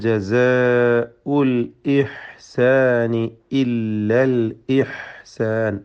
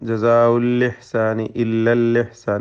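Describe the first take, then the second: First: The glottal stops are pronounced clearly. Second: The glottal stops are weakened or dropped. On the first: The speaker calls it right. "ഇതിൽ വരുന്ന ഹംസകളൊക്കെയും വളരെ വ്യക്തമായി ഉച്ചരിക്കണം" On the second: The speaker calls it wrong. "അതൊക്കെ വലിയ അബദ്ധമാണ്"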